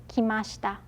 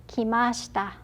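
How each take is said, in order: No difference in how they are said.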